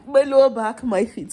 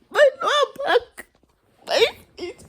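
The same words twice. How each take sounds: First: Said in the usual way. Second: Very high fake sob over aches; hammed-up tearful moan; mock wailing. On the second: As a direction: wail it in pretend agony.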